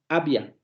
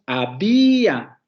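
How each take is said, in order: First: The two vowels blend into one syllable. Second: The two vowels fall in separate syllables. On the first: The speaker calls it wrong. "No decimos" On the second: The speaker calls it right. "Decimos había"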